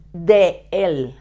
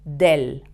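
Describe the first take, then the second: First: "de el" said as two separate words, de then el; the mistaken uncontracted "de el"; wrong form. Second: "del" said as one contracted syllable, del; the correct contraction "del"; right form. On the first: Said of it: "it's a mistake". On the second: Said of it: "You always have to say". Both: Shown as a demonstration.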